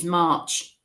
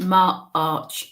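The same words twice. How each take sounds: First: Said in the usual way. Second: MARCH split in two, mar-arch; March, pulled apart into two beats; broken down. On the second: Retold or imitated. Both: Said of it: "which is March".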